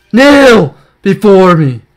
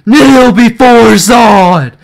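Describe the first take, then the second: First: Dark lord. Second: Slow loud commanding villain; dark lord. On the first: Gloating over a pull. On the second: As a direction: boom it out like a conquering tyrant. Quoting General Zod. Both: Pretend.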